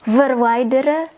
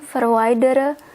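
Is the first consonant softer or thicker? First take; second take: thicker; softer. First: The first consonant is a thick, full V. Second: The first consonant is soft, leaning toward F. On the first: The speaker calls it right. "you should pronounce it a bit thicker" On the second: The speaker calls it wrong. "Sometimes I say verwijderen"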